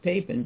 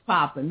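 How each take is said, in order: First: The first vowel is an 'ay' sound. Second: The first vowel is an open 'ah' sound. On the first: "I kind of like the Papen" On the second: "it's like the ah sound in Maul"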